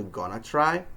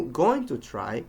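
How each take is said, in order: First: "gonna try" with "going to" squeezed into "gonna"; reduced phrase. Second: "going to try" with each word separate, slowly; full unreduced form. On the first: Teacher showing what it changes into, reduced "gonna try". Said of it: "changes into". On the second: Teacher showing phrase reduction, "going to try" spoken in full. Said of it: "combining or squeezing parts". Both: Shown as a demonstration.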